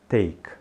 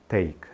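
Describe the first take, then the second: The two takes are said the same way.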